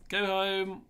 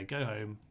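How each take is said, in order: First: Higher and louder, emphatic; louder repeat. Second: Said in the usual way. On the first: Real, not acted. Sending his own troops home, louder and emphatic. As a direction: push it out the second time.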